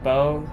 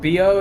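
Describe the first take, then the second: First: The word is said as one French-style syllable. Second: The word is sounded out letter by letter. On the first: The speaker calls it right. "it's pronounced Bo" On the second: The speaker calls it wrong. "it's not pronounced B O"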